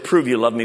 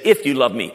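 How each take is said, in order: First: "Prove" leaned on as a demand; low-pitched command led by "Prove"; stress on PROVE. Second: "If" stressed, then falling away; "If" picked out as the key word. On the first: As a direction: state "Prove" as an order, not a condition. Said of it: "my religious mind said". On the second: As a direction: lean on "If" to make it conditional. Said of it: "It's a question". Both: Shown as a demonstration.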